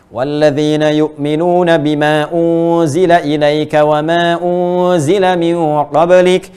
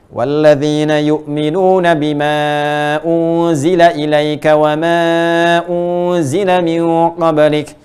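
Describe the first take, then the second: First: The stretched vowels are held about one second. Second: The stretched vowels are held about two seconds. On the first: "dua harokat berarti satu detik" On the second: "Empat harokat, dua detik"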